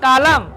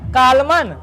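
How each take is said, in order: First: The final n sound is silent. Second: The final n sound is pronounced. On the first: The speaker calls it right. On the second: The speaker calls it wrong.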